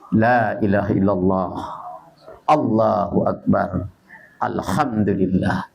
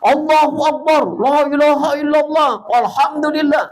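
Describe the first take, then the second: First: It is said in a soft voice. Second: It is shouted loudly.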